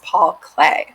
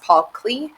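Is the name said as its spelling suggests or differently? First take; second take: differently; as spelled. First: The name is said unlike its spelling suggests. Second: The name is said the way its spelling suggests. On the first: The speaker calls it right. "it's actually pronounced" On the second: The speaker calls it wrong. "it might look like it's pronounced"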